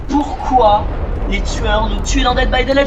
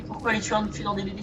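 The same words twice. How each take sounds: First: Loud, hyped announcer question to viewers. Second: Much softer, confiding retake of the question; hushed question. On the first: Streamer teases viewers with a loud hyped question. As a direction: pose the big question loud like a host. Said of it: "Les amis, j'ai trouvé". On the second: Streamer asks viewers again in a soft hushed voice. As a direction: ask it again softly, as if sharing a secret. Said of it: "Alors les amis". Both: Acted.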